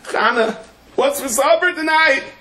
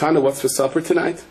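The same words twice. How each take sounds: First: It is said noticeably louder. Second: It is said at a normal, quieter volume.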